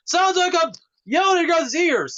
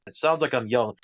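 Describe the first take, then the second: First: High-pitched yell, well above usual talk; sudden high shout to show how loud it sounds; demonstrative yelling. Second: Said in the usual way. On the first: Shown as a demonstration. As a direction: yell it right into their ears as an example. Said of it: "that's what it sounds like if I'm yelling". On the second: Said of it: "that's what it sounds like".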